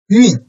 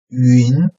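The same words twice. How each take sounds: First: The pitch falls sharply from high to low. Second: The pitch rises from mid to high.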